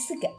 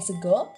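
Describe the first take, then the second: First: The final vowel is pronounced as an a sound. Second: The final vowel is pronounced as an o sound. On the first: This is the Ngapak dialect form. "tapi sega" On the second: This is the general Javanese form. "bukan sego"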